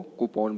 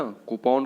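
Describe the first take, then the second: First: कूपन with an open, long last vowel: koo-PAAN; correct pronunciation. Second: कूपन with a short last vowel: KOO-pun; wrong pronunciation. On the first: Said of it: "क्या बोलना है हमको". (कूपन को "कूपॉन" बोलें) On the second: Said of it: "जो कि तरीका गलत है". (कूपन का आख़िरी स्वर छोटा) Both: Shown as a demonstration.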